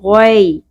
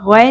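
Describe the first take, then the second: First: The ai sound is said softly and gently. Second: The ai sound is said harshly and abruptly. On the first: The speaker calls it right. "नरमी से अदा होगा" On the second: The speaker calls it wrong. "गौय नहीं पढ़ना"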